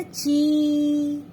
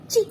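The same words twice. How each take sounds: First: ची stretched long and slow with a wide smile; लंबा खिंचा हुआ ची, बड़ी स्माइल के साथ; long chee. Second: Short, clipped ची with a small smile; छोटा, जल्दी बोला गया ची; short chi. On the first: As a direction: draw out ची, mouth spread wide. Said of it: "बड़ी की मात्रा लगाते हैं थोड़ा लंबा खुलता है". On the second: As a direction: say ची quick and short, lips barely spread. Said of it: "आपकी स्माइल इतनी होती छोटी की मात्रा में ची". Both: Shown as a demonstration.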